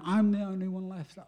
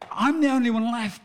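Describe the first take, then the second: First: It is said in a desperate, defeated tone. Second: It is said in a confident, determined tone. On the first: The speaker feels at the end of their strength. "the tone in the first way of saying it is in desperation" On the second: The speaker feels ready to take the task on. "it turns it around"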